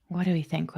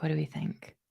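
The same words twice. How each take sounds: First: Said in the usual way. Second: Muttered much softer to herself; a hushed echo of her own question; soft repeat. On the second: Real, not acted. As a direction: drop it to a low, soft murmur. Repeats her question more softly.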